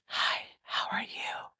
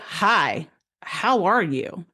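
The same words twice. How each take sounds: First: It is said softly, gently, without emotional tone. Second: It is said with noticeable emotional tone. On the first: This is how an intuitive thought comes in. "It comes in softly" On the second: This is how a regular thought comes in. "There's tone and emotions in our regular thoughts"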